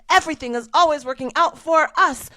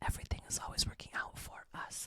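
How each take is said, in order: First: It is said loudly and forcefully. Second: It is said quietly and softly.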